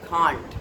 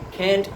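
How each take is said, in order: First: It is said with a British accent. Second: It is said with an American accent. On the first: "but in the British English it is can't" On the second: "Can't in American English"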